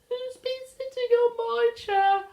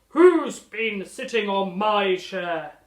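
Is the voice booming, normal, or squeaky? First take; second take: squeaky; booming. First: It is said in a high, small voice. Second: It is bellowed in a loud, deep voice.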